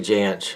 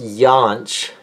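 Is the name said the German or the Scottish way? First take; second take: Scottish; German. First: The name is said the Scottish way. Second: The name is said the German way.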